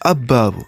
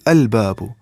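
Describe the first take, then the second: First: The l merges into a doubled b sound. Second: The l is clearly pronounced before the b. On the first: The speaker calls it wrong. "we are not saying abbabu" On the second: The speaker calls it right. "We are saying al babu"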